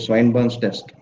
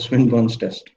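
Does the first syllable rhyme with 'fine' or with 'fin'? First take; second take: fine; fin. First: The first syllable sounds like 'swine'. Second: The first syllable sounds like 'swin'. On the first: The speaker calls it wrong. "many of people uh, they pronounce like that only" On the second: The speaker calls it right. "No, it is a Swinburne's test"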